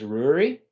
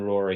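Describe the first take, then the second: First: The name has a Gaelic pronunciation. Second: The name has an anglicized pronunciation. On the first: This is the original form of the name. "the Gaelic pronunciation is Rory" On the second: This form is easier for locals to say. "a lot easier for people to say"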